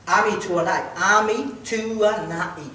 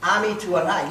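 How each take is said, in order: First: Ami Tuanai said slowly, syllable by syllable, A-mi Tu-a-nai; broken into syllables. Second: Said in the usual way. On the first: Shown as a demonstration. Comedian teaching the crowd his name, slow syllables. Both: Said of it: "Let me break it down in syllables".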